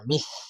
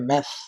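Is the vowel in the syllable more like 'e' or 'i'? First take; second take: i; e. First: The vowel sounds like a close 'i'. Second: The vowel sounds like an open 'e'. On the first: The speaker calls it right. "জেরের উচ্চারণ মি, জেরের উচ্চারণ মে না।" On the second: The speaker calls it wrong. "অনেকে মেস, ... কিন্তু এভাবে হবে না।"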